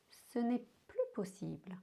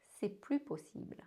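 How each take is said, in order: First: "Ce n'est plus possible" with the n' said; careful form, "n'est" spoken. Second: Casual "C'est plus possible", no ne; quick everyday "C'est plus"; ne dropped. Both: Shown as a demonstration. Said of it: "did you heard the difference".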